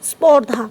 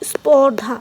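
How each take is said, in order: The two takes are said the same way.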